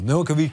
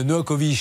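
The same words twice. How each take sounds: First: Novakovic said with a final tch sound, Novakovitch; corrected pronunciation. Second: Novakovic said with a plain final -vic, no tch sound; wrong pronunciation. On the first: Shown as a demonstration. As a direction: Novakovic ending in tche. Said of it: "Pardon, c'est Tche". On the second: Real, not acted. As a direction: Novakovic ending in a hard vic. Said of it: "Non, c'est Tche".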